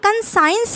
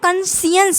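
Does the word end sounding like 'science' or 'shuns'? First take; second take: science; shuns. First: The ending sounds like the word science. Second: The ending is a short unstressed shuns sound. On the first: The speaker calls it wrong. "ये कन साइंस नहीं बोलेंगे इसको" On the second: The speaker calls it right. "पर इसको कंसियंस बोलते हैं"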